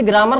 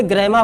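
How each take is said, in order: First: ग्रामर said "graa-mar", long aa and sounded final r; Hindi-style pronunciation. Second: ग्रामर said "gre-maa", silent final r; English-style pronunciation. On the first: Teacher showing students the common reading, ग्रामर as "graa-mar". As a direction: say ग्रामर as "GRAA-mər", r at the end. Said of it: "इसे ग्रामर नहीं पढ़ते हैं". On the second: Teacher correcting students' reading, ग्रामर as "gre-maa". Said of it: "इसे ग्रामर पढ़ा जाता है". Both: Shown as a demonstration.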